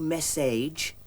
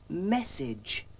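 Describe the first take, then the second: First: The last syllable has a long a sound. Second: The last syllable has a short, weak vowel. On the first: The speaker calls it wrong. "You don't say message" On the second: The speaker calls it right. "you say message"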